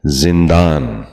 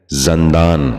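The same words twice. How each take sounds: First: زندان with short i first, "zin-daan"; correct زندان. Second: زندان with short a first, "zan-daan"; mispronounced زندان. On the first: Teacher modelling for viewers, زندان said as "zindaan". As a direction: start زندان with zin, not zan. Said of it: "درست تلفظ ہے". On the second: Teacher showing viewers a common mistake, زندان said as "zandaan". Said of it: "یہ غلط تلفظ ہے". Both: Shown as a demonstration.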